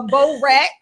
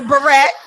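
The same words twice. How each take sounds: First: Barrette as "bow-RET"; bourette, "bow" first syllable; Baltimore pronunciation. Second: Barrette as "buh-RET"; barrette, light "buh" start; Jersey pronunciation. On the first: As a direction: say barrette with a long "oh". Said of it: "but it was like a". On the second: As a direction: say barrette with a reduced first vowel. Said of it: "Like in Jersey". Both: Shown as a demonstration.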